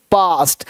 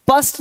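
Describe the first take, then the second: First: पास्ट with a held "aa"; long aa vowel. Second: पस्ट with a clipped "uh" sound; wrong short vowel. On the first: Teacher repeating the correct word, long aa. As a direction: open and lengthen the आ in पास्ट. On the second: Teacher repeating what to avoid, short vowel. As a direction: keep पस्ट short in the middle. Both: Shown as a demonstration. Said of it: "पस्ट नहीं पास्ट".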